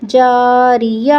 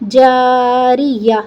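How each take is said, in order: First: "جاریہ" slow, ending on an open ya; joined spelling-out. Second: "جاریہ" slow, closing on a breathed h; waqf with ha. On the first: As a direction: build "جاریہ" from its syllables, leaving the last vowel open. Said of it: "یا زبر یا". ("جاریہ" آخر میں کھلا یا) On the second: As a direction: stop on "جاریہ" with the round ta turned into an audible h. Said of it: "گول تا کا ہا بن جائے گا". ("جاریہ" کے آخر میں ہا پر وقف) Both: Shown as a demonstration.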